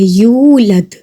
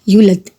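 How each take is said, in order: First: The first vowel is drawn out long. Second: The first vowel is rushed and short. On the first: The speaker calls it right. "या के साथ वाव है" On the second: The speaker calls it wrong. "यूलद जल्दी से कह देते हैं"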